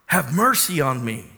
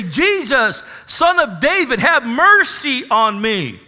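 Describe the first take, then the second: First: Said in the usual way. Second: Higher, slow pleading cry for mercy; a moderate acted cry, higher and drawn out. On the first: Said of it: "God gave this guy revelation". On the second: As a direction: beg across the crowd for mercy. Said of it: "he began to cry out and say".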